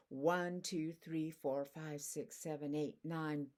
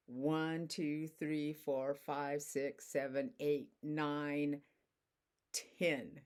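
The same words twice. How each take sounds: First: Said in the usual way. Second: Slow, deliberate counting to ten. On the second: Shown as a demonstration. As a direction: count each number slowly so it lands. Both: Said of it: "Let me show you how it works".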